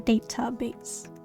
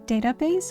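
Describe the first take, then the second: First: The t in database is hard. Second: The t in database is soft. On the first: "or a hard T" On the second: "With a soft"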